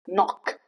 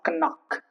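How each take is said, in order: First: The K at the start is silent. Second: The K at the start is pronounced. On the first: The speaker calls it right. "K before N" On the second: The speaker calls it wrong. "It's not knock"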